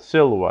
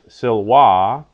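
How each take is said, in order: First: The stress is on the first syllable. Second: The stress is on the second syllable. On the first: The speaker calls it right. "Words of two syllables are accented on the first syllable" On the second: The speaker calls it wrong. "Not silva"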